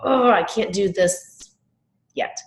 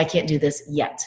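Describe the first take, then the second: First: Acted frustration, high groaned 'Oh', then slow; frustrated. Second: Said in the usual way. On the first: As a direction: draw it out in exasperation, pause before 'yet'. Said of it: "the next time she's frustrated".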